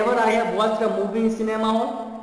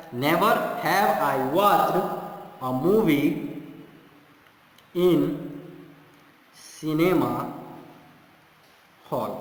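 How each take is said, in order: First: Said in the usual way. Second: Very slow, with "Never" pushed out first and strongest; stress on never. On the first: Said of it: "क्या ये सही होगा? नहीं होगा". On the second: Shown as a demonstration. Teacher modelling the correct inversion, slow with "Never" stressed. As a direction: open on a weighted "Never", then walk through the words slowly. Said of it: "never तो inversion करने के लिए".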